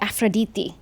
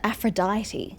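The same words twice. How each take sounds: First: The name has a Greek-style pronunciation. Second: The name has the usual English-speaker pronunciation. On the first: This is how the name is said in its native language. The speaker calls it right. "using a Greek accent, ... I'm pretty sure it should be Aphrodite" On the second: This is how most people commonly say the name. The speaker calls it wrong. "everyone just pronounces it Aphrodite"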